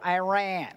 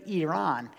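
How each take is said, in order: First: It is said with a Georgia-style American pronunciation. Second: It is said the way a native speaker says it. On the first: The speaker calls it wrong. "Georgia boys go" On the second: The speaker calls it right. "But it's Iran"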